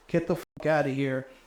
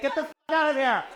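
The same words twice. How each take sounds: First: It is said in a plain, harsh tone. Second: It is said in a playful, sassy tone. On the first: It comes across as an insult. "if a straight man wants to be like" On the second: It comes across as a term of endearment.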